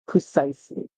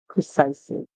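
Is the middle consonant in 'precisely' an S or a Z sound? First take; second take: S; S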